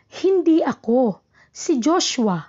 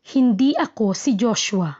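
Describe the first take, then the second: First: There is a pause right after ako. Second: The only pause comes at the end. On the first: The speaker did not do it; Joshua did. "ang hinto ay nasa ako" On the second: The speaker is not Joshua. "nasa hulihan ng hinto"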